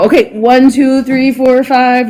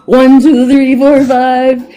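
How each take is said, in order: First: Said in the usual way. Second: Counting out louder and higher; louder mic check. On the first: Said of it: "And they're like, "No". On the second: Retold or imitated. Asked to redo the mic check, she counts out louder. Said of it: "And they're like, "No, no, no".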